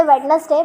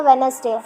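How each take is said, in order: First: वेडनेसडे with every d sounded, wed-nes-day; spelled-out reading. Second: वेडनेसडे with a silent first d, wens-day; correct pronunciation. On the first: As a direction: read वेडनेसडे letter by letter, the first d said. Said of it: "actual में अपन पढ़ते". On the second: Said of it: "but ये होता है". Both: Shown as a demonstration.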